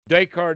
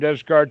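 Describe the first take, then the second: First: The name is said with French pronunciation. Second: The name is said with English spelling pronunciation. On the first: This is how the philosopher's own language says it. "Descartes is his French name" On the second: This is how it looks to English readers in print. "people who read English books call him Descartes because that's the way that it looks"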